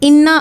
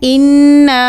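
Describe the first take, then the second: First: The word is said quickly without lengthening. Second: The word is said with a held, lengthened sound. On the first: The speaker calls it wrong. "जल्दी जल्दी में इन्ना आतईना पढ़ रहे होते हैं" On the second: The speaker calls it right. "तो हमने कैसे पढ़ना है?"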